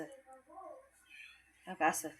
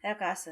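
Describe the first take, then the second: First: Much softer, very slow, stretched out; soft drawn-out repeat. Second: Said in the usual way. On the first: Shown as a demonstration. Repeating for viewers, soft and drawn out. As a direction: let it trail off softly and slowly.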